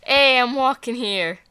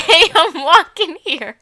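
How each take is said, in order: First: Put-on light New York cabbie accent. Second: Put-on slow, louder New York cabbie accent through giggles. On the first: New York accent tossed out about the Bronx. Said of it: "It was a good New York accent". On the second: Redoing the New York accent on request, laughing. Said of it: "Just do it one more time".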